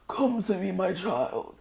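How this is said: It is said in an old, wise elder's voice.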